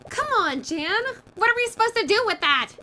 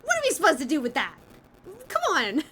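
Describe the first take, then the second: First: High, loud frustrated protest; exasperated outburst. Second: Quick, high mock protest; fast exasperated imitation. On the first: Acted. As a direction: throw up your hands in disbelief. Game character protests loudly. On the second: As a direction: rattle it off like her outburst. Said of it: "I love that Celeste is just like".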